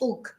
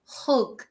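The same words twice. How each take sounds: First: The word begins without any h sound. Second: The word begins with a clear h sound. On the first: The speaker calls it wrong. "not hug" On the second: The speaker calls it right. "we pronounce the H"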